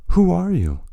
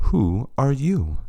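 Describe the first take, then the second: First: 'Who are you?' higher, pushed out, stress on who; a desperate cry with stress on 'who'; strangled and desperate. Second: 'Who are you?' turned back slowly, stress on you; slow mocking echo with stress on 'you'. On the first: Acted. Overwhelmed president asks the stranger, stress on 'who'. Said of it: "his voice sounding strangled and desperate". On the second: Vice president slowly turns the question back on him, stress on 'you'. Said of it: "a far better question would be".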